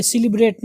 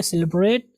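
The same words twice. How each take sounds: First: सेलिब्रेट as "si-li-brate"; wrong pronunciation. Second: सेलिब्रेट as "seh-le-brate"; correct pronunciation. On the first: Teacher rejecting the mistake, सेलिब्रेट starting "si-li". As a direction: give सेलिब्रेट a narrow "si" start. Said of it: "सेलिब्रेट नहीं होता है". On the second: Teacher modelling for learners, सेलिब्रेट starting "seh-le". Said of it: "कहेंगे सेलिब्रेट". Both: Shown as a demonstration.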